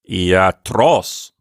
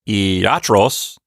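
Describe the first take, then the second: First: The stress falls on the last syllable. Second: The stress falls before the last syllable. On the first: The speaker calls it right. "with the accent on the last syllable" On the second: The speaker calls it wrong. "So it's not iatros"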